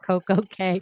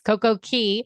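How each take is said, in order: First: The last word is said like 'kay'. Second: The last word is said like 'key'. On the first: This is how another person says it. The speaker calls it wrong. "our C C L pronounces it" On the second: This is the speaker's preferred way. The speaker calls it right. "It's Coco Key"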